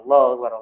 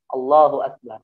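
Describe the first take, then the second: First: It is said fast and unclearly. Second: It is said slowly and clearly.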